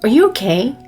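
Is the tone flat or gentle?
flat. It is said in a plain, flat tone. The speaker calls it wrong. "그냥 Are you okay?"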